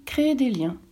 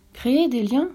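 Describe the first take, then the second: First: "créer des liens" stated with a falling end; "créer des liens" as a plain answer, closing downward; explaining statement. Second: "Créer des liens" lifted into a rising question; puzzled repeat of "Créer des liens", rising at the end; questioning echo. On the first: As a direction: give "créer des liens" as a settled definition, ending down. Fox defines the word, prince echoes. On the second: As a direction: echo "Créer des liens" back higher, asking what it means. Prince echoes the definition, asking. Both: A narrator's reading.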